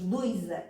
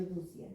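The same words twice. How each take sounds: First: "doisa" with the i pulled into the stressed syllable; dialect form. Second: Said in the usual way. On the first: Shown as a demonstration. Teacher showing the local form, metathesised "doisa". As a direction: say "doisa" for dúzia, glide moved forward. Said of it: "a forma como nós dizemos". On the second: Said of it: "em vez de dúzia".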